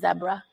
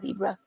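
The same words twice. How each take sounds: First: It is said with a British accent. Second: It is said with an American accent. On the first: This is how the child says it. "he still says zebra" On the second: This is the usual local way to say it. "instead of zebra"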